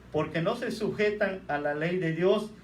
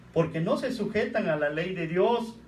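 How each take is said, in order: Both takes have the same delivery.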